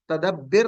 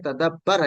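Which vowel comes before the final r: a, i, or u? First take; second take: i; a. First: The vowel before the final r is i. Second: The vowel before the final r is a. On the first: The speaker calls it wrong. "इस तगफिर की तरह तदब्बिर नहीं है" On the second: The speaker calls it right. "बल्कि तदब्बर है"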